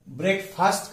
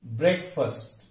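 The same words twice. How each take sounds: First: ब्रेकफास्ट with a long "faast"; full long vowel ending ब्रेकफास्ट; wrong pronunciation. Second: ब्रेकफास्ट as BREK-fust; first syllable stressed, short weak end in ब्रेकफास्ट; lower, careful model of ब्रेकफास्ट; correct pronunciation. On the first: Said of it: "गलत उच्चार क्या करते". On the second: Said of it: "सही उच्चार क्या है". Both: Shown as a demonstration.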